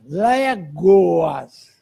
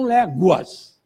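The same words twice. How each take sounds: First: "léguas" dito com O, lé-go-as; old spelling "légoas". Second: "léguas" dito com U, lé-gu-as; modern "léguas". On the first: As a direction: pronuncie "léguas" como se escrito com O. ("léguas" com som de O, como na grafia antiga) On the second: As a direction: pronuncie "léguas" com U, como hoje. ("léguas" com U, pronúncia moderna) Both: Shown as a demonstration. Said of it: "e não léguas".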